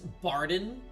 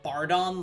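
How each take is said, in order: First: The name does not end like 'Zordon'. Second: The name ends like 'Zordon'. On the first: The speaker calls it right. "his name is Barden" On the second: The speaker calls it wrong. "I've been pronouncing it Bardon, like Zordon"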